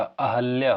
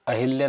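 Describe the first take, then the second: First: अहल्या with no i, a-hal-ya; correct pronunciation. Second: अहिल्या with a short i after the h, ah-HIL-ya; wrong pronunciation. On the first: Teacher giving students the correct अहल्या, with no i. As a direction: say अहल्या cleanly with a short a after h. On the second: Teacher showing students the wrong अहिल्या, with an i. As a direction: say अहिल्या as the common mistake, with an i sound. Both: Shown as a demonstration. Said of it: "अहिल्या नहीं होता".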